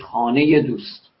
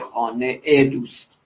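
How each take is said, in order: First: The ezafe is linked with a 'y' glide. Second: The ezafe is a separate 'ee' syllable. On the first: The speaker calls it right. "میگه خانه ی دوست" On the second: The speaker calls it wrong. "نمیگه خانه ای دوست"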